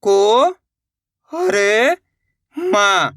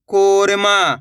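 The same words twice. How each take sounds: First: "को ... हर ... मा", stretched parts with pauses; letter by letter. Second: Said in the usual way. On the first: Shown as a demonstration. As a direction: sound out "को हर मा" one by one. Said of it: "एक एक अक्षर का उच्चारण". ("को ... हर ... मा" रुक-रुककर, खींचकर) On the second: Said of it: "शब्द का उच्चारण".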